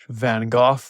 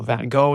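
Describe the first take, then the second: First: The name is said in a British accent. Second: The name is said in an American accent.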